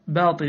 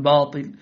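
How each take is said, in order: First: "باطل" with thin front aa; light ba. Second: "باطل" louder, with dark backed aa; wrongly heavy ba. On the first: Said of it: "كذلك". (ترقيق باء "باطل") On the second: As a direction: thicken the ba of "باطل". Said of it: "لا تقل". (تفخيم باء "باطل") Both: Shown as a demonstration.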